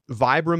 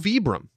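First: The name is said the American way. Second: The name is said the Italian way. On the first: This is the common local pronunciation. "the commonly used American pronunciation" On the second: This is the technically correct original pronunciation. "it's also Vibram because it's an Italian company"

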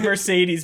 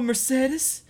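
First: The name is said in a plain, everyday way. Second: The name is said in a fancy, elevated way. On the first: "it's totally Mercedes" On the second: "it's like they're trying to church it up"

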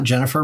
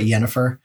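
First: The name begins with a J sound. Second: The name begins with a Y sound. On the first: The speaker calls it wrong. "not Jennifer" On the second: The speaker calls it right. "but Yennefer"

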